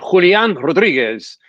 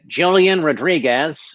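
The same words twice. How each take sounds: First: The name is said with a Latin accent. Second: The name is said with an American accent. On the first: "with a Latin uh, pronunciation" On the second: "American pronunciation"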